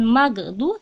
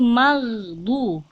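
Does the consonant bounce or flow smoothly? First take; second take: bounces; smooth. First: The consonant bounces with an echoing release. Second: The consonant flows smoothly without bouncing. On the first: The speaker calls it wrong. "bukan magdu" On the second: The speaker calls it right. "tidak boleh memantul ... alirkan"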